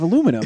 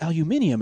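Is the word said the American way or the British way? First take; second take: American; British. First: It has four syllables with no extra i. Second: It has five syllables with an extra i. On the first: This is the usual way at home. "instead of aluminum" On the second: This is how the British character says it. "he says aluminium"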